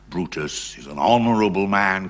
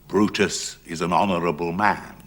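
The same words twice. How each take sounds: First: Honourable is given heavy, weighty emphasis. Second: Honourable is set apart as if in quotes. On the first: The word is made grand to mock it. "capital letters" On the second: The word is used ironically, as someone else's term. "inverted commas"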